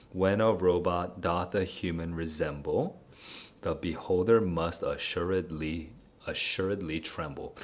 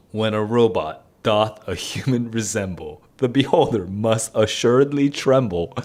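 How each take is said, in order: First: Softer, weighing each beat of "when a robot doth a human resemble"; scanning the meter. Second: Said in the usual way. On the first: Shown as a demonstration. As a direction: tap out the iambic stresses of "the beholder must assuredly tremble". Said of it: "let me just double check, iambic pentameter". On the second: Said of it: "let me just double check".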